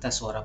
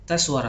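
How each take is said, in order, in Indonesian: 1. Suaranya pelan dan lembut. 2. Suaranya bervolume sedang. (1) "tes suara pelan" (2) "tes suara sedang"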